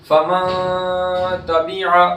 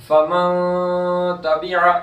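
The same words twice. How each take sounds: The two takes are said the same way.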